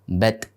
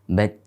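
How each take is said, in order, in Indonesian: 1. Bunyi t di akhir dilepas dengan memantul. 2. Bunyi t di akhir ditahan tanpa dilepas. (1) "membacanya mirip dengan huruf qalqalah. Contoh bat. Nah, ini tidak benar" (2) "Cukup kita baca bat, bat, nah, seperti itu tanpa memisahkan"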